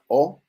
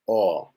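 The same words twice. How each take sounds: First: The vowel is closed with tightly rounded lips. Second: The vowel is relaxed with less rounded lips. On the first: "Nuestra O bien cerradita" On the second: "Pero se relaja"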